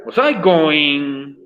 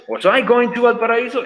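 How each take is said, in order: First: Slow, deliberate model phrase; slow demo. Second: Higher, brighter full model question; lively model question. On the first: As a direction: lay out each word for the class. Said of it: "por ejemplo". (frase modelo lenta y pausada) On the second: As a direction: read the finished question out for the class. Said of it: "¿Estaba yo yendo a Valparaíso?". (pregunta completa más aguda y animada) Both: Shown as a demonstration.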